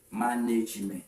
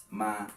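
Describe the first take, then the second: First: Said in the usual way. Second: Manage split into "ma" and "nage", long pause between; low, softer "Manage", broken in the middle; syllable by syllable. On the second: Shown as a demonstration. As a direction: sound out "Manage" in two separate pieces.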